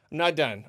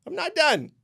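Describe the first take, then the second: First: Said in the usual way. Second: Higher, said through a laugh. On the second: Real, not acted. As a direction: laugh it off while insisting. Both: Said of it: "I ain't done".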